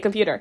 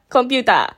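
First: It is said with an English accent. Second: It is said with a Japanese accent. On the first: The speaker calls it right. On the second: The speaker calls it wrong.

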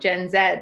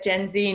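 First: The letter Z is said the British way. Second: The letter Z is said the American way. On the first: The speaker keeps the home habit. The speaker calls it right. "not Gen Z" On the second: The speaker has picked up American habits. The speaker calls it wrong. "you've clearly been in the States too long"

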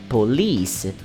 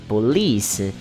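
Both takes have the same delivery.

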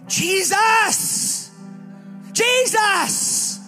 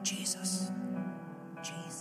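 First: It is said with desperate urgency. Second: It is said calmly, without urgency.

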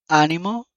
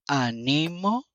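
First: The stress is on the first syllable. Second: The stress is on the middle syllable.

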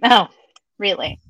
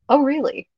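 First: It sounds doubtful and dismissive. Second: It sounds genuinely interested and open.

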